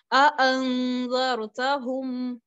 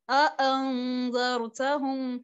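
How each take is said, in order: First: अअंज़रतहुम slow, each hamza cut clean with a glottal stop; slow tajweed recitation of अअंज़रतहुम, two distinct hamzas; both hamzas pronounced. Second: अअंज़रतहुम repeated slowly, two clear glottal stops; slow recitation of अअंज़रतहुम, hamzas not merged; both hamzas pronounced. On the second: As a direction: recite अअंज़रतहुम again with every hamza cut apart. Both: Shown as a demonstration. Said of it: "दोनों की आवाज को अलहदगी में पढ़ा".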